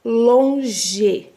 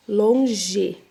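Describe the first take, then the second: First: Longe held long so the class hears the J sound; clear demo word. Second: Said in the usual way. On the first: Shown as a demonstration. (Longe dito devagar e mais forte) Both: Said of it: "Terceira palavrinha".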